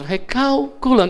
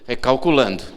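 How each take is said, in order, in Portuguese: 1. É dita com um tom uniforme e suave. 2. É dita com um tom irritado e impaciente. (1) "ela continua igual" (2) "Ela nem faz assim"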